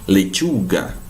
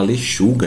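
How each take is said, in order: First: The middle consonant is a sharp ch sound. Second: The middle consonant is a soft sh sound. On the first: The speaker calls it right. "a gente fala lechuga" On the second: The speaker calls it wrong. "A gente não fala lechuga"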